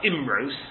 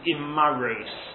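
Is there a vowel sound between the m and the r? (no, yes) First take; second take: no; yes. First: The m runs straight into the r. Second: A short a sound comes between m and r. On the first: This is the reading printed in these prayer books. "some of the gersos are Imros" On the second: This is another accepted reading of the word. "with a chataf patach under the mem"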